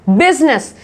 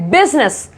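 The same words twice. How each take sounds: The two takes are said the same way.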